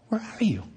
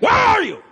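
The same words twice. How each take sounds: First: It sounds sad and heartbroken. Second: It sounds angry and demanding.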